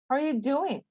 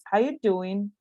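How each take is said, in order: First: Every word is said in full, including 'are'. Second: The word 'are' is dropped in a contraction.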